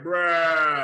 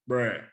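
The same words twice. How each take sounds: First: The word is stretched long and drawn out. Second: The word is said short and plain. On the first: Something exciting or crazy happened. "I do it long and drawn out" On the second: Someone said something dumb or senseless. "just give it a regular standard bruh"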